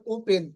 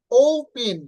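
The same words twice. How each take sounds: First: "ওপেন" with short o and plain p; unstressed, no glide in "ওপেন"; wrong pronunciation. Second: "ওপেন" loud, long o-u then aspirated p; correct pronunciation. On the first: ("ওপেন" ছোট ও, সাধারণ প) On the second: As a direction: stress the opening glide of "ওপেন". ("ওপেন" ওউ টেনে, ফেন) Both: Shown as a demonstration. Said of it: "not ওপেন".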